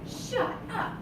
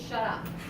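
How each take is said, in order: First: It sounds shocked and surprised. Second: It sounds hostile and forceful. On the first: The speaker is stunned by what they heard. "like you're in shock" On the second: The speaker really wants the other person silent. "Like, seriously, shut your face"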